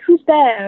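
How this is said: It is said imitating an English accent.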